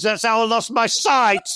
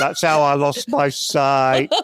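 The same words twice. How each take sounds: First: Put-on punchline declaimed in a northern accent. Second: Put-on much lower repeat of the punchline, northern accent. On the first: Poet ending his mock-nostalgic bonfire poem, northern accent. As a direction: cap the verse in broad northern English. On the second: Poet repeating his grim last line over laughter, low northern accent. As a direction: drop deep for a northern-accented tag line. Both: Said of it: "do it in a northern accent".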